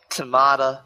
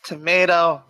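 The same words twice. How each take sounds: First: "tomato" said as to-MAH-to; the second take with a broad ah, to-MAH-to; British tomato. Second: "Tomato" said as to-MAY-to; the first take rhymes with potato, to-MAY-to; American tomato. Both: Shown as a demonstration.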